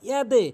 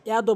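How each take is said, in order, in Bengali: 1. বাউন্স করা দাল-এর শেষে 'e' ধ্বনি আছে। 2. বাউন্স করা দাল-এর শেষে 'o' ধ্বনি আছে। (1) "এখানে বলতে হবে ইয়াদে" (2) "লোকের ভুল হয় এখানে, বলে ইয়াদো"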